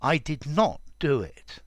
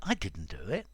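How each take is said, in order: First: Did not is said in full, with emphasis. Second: The negative is contracted to didn't. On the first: The speaker may be lying. "The extra emphasis in did not is it's again unnatural" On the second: The speaker is telling the truth. "It just comes out naturally"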